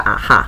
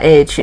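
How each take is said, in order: First: The name is said as one word, ah-ha. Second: The name is spelled out as English letters. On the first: This is the Dutch pronunciation. "荷兰发音叫啊哈" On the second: This is how some people in Taiwan say it. "台湾有人叫A H"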